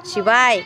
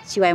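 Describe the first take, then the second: First: Calling out to show. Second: Said in the usual way. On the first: Shown as a demonstration. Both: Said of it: "म्हणून दाखव".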